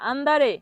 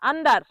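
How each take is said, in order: First: It ends with an 'eh' vowel after R. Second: It ends on the R with no vowel. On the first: The speaker calls it right. "সঠিক উচ্চারণ কি হবে?" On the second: The speaker calls it wrong. "অনেকে ভুল উচ্চারণ করে আন্ডার"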